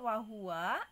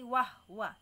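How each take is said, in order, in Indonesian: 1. Suku kata "hu" mempertahankan vokal u-nya. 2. Suku kata "hu" kehilangan vokalnya. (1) "Asalnya hu-nya domah" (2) "jadi sukun e, haknya menjadi wahwa"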